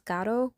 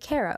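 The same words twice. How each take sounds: First: The R is rolled. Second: The R is plain, not rolled. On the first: "like with a rolled R" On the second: "you'd think it'd be Caro"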